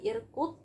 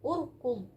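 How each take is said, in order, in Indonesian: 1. Kata ini diawali dengan vokal i. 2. Kata ini diawali dengan vokal u. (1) "bukan irkud" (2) "Jadi bacanya apa?"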